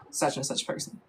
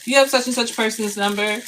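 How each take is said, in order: First: Whispered aside. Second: Said in the usual way. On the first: Shown as a demonstration. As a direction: whisper the placeholder name, almost no voice. Placeholder name said under breath.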